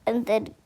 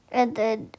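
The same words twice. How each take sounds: The two takes are said the same way.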